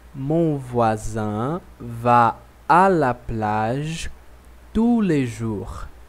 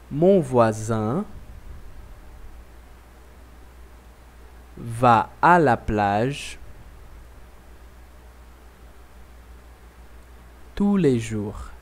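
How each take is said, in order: First: The sentence is said at normal speed. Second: The sentence is said slowly, with pauses.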